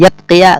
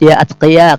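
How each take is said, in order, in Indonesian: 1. Hamzah dihilangkan dan kedua kata menyatu. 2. Hamzah sebelum atqiya diucapkan. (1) "Yatqiya kada boleh, karena hamzah qata" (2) "kada boleh hilang hamzahnya itu"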